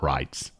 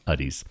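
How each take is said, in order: First: The ending is said like the word 'rides'. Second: The ending is said like 'uddies'. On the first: The speaker calls it wrong. "Not Rides" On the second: The speaker calls it right. "now that I'm seeing a pronunciation guide, it's Buzzer Uddies"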